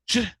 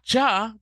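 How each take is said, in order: First: The j sound is said alone, without a vowel. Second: A short vowel follows the j sound. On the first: The speaker calls it right. "just a j" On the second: The speaker calls it wrong. "not ja"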